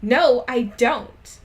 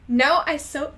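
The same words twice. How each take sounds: First: Loud, slow shouted denial. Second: Starts the line loud and high in the wrong character's voice; a slip into the other character's loud voice. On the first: Raven denying her crush to Willow, loud slow shout. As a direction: bellow it slowly at the friend. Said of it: "I shouted". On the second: Reader voicing the wrong character, louder and higher. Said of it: "wait, no, wrong voice". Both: Acted.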